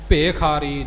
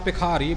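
First: The first syllable has a long 'e' vowel. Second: The first syllable has a short 'i' vowel. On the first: The speaker calls it right. "ਭੱਬੇ ਦੇ ਲਾਮ ਦਾ ਪੂਰਨ ਤੌਰ 'ਤੇ ਖਿਆਲ ਰੱਖਣਾ" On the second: The speaker calls it wrong. "ਆਮ ਤੌਰ 'ਤੇ ਆਪਾਂ ਭਿਖਾਰੀ ਬੋਲ ਜਾਂਦੇ ਹਾਂ, ਜੋ ਕਿ ਭੱਬੇ ਨੂੰ ਸਿਹਾਰੀ ਦਾ ਉਚਾਰਨ ਹੋ ਜਾਂਦਾ ਹੈ"

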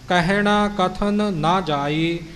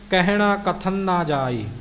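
First: Both n sounds are heard clearly apart. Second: The two n sounds blend into one. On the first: The speaker calls it right. "ਦੋਹਾਂ ਨੰਨਿਆਂ ਦੀ ਆਵਾਜ਼ ਸਪਸ਼ਟ ਤੌਰ 'ਤੇ ਆਵੇ" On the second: The speaker calls it wrong. "ਜਦੋਂ ਕਥਨ ਨਾ ਆਪਾਂ ਬੋਲਾਂਗੇ ਤਾਂ ਇਹਦੇ ਵਿੱਚੋਂ ਇੱਕ ਨੰਨੇ ਦੀ ਆਵਾਜ਼ ਅਲੋਪ ਹੋ ਜਾਂਦੀ ਹੈ"

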